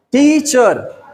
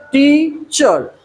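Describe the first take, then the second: First: टीचर said as two clear beats, tee-chur; two syllables. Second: टीचर split wide, long tee, pause, chur; slow teacher's breakdown of टीचर, tee... chur; syllable by syllable. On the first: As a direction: lightly separate the two sounds of टीचर. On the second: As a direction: stretch टीचर slowly into two separate sounds. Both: Shown as a demonstration. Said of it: "टू sound".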